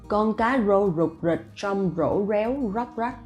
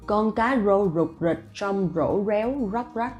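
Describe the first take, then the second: First: Each r is said as a true r sound. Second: Each r is said as a true r sound.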